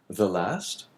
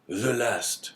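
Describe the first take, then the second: First: The last? asked with the voice rising at the end; rising question. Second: The last. said flat with the voice falling at the end; falling answer. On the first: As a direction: Morel asks, doubting, with The last? rising. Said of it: "question echoed back". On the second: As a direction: Morel confirms it, The last. falling heavily. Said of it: "answer confirming it". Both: A narrator's reading.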